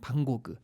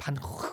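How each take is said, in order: First: The name is said with a French pronunciation. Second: The name is said with a Dutch pronunciation. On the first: "프랑스에서는 방고그" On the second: "네덜란드 원어로는요 반고 이런 거에 가깝다고 그래요"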